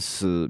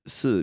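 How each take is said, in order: First: The syllable carries the tone meaning die. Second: The syllable carries the tone meaning yes. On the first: It means die. "死 means die" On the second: It means yes. "是 means yes"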